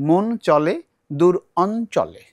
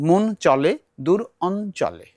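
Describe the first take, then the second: Both takes have the same delivery.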